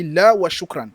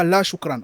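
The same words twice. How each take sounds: First: "la wa shukran" with a firm "la" joined to "wa"; corrected phrase. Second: Said in the usual way. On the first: Shown as a demonstration. Teacher correcting how students say no thanks, emphatic model phrase. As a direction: stress "la", then link "wa shukran". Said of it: "on dit la wa shukran". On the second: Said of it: "on ne dit pas".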